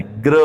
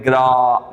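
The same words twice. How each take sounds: First: ग्र with a short "ə", low; correct sound. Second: ग्रा with a long open "aa"; the wrong sound. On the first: Teacher shows the right ग्र. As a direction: clip ग्र short and light. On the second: Teacher shows students' wrong ग्रा. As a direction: stretch the आ in ग्रा. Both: Shown as a demonstration. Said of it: "ग्रा नहीं बोलना है".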